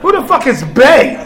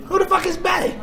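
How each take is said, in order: First: Loud, high demand; furious dad demanding; angry outburst. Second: Higher, shouted demand; outraged dad shouting; shrill angry shout. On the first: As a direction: bark it at the phone. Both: Retold or imitated. Father reading daughter's phone.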